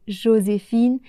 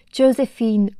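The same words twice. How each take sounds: First: Said in the usual way. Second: Josephine in English accent, "Jo-se-feen" with English vowels. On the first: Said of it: "au lieu de Joséphine". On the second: Shown as a demonstration. Teacher mimicking how the film's actors say Josephine, English accent. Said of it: "avec un accent anglais".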